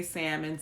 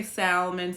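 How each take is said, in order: First: "salmon" with no L, SAM-mon; salmon with silent L. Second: "salmon" with the L sounded, SAL-mon. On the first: Showing listeners how others say it, "salmon" with a silent L. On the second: Showing listeners how some people say it, "salmon" with a sounded L. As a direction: pronounce the L in "salmon". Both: Shown as a demonstration. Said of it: "some people say salmon".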